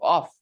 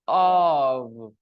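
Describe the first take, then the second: First: The word ends with a voiceless f sound. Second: The word ends with a voiced v sound. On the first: The speaker calls it wrong. "O F is not pronounced off" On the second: The speaker calls it right. "But O F is pronounced of"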